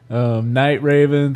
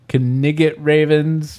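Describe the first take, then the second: First: Night starts plainly with an n sound. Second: Night starts with a k sound before the n. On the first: The speaker calls it right. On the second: The speaker calls it wrong.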